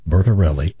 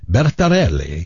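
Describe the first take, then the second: First: The name is said with an American accent. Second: The name is said with an Italian accent.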